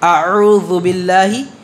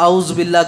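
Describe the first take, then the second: First: The throat sounds are articulated carefully. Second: The throat sounds are articulated loosely. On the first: The speaker calls it right. "मैं इसके पढ़ने का तरीक़ा भी बता देता हूँ आपको" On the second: The speaker calls it wrong. "बहुत सारे लोग मखारिज का ध्यान नहीं रखते"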